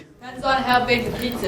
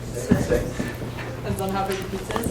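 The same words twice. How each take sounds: First: It is said louder and more clearly. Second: It is said at a quieter, normal volume.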